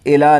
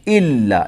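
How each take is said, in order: First: The L sound is short and single. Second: The L sound is held and doubled. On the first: The speaker calls it wrong. "إلا नहीं है" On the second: The speaker calls it right. "लाम को डबल पढ़ेंगे"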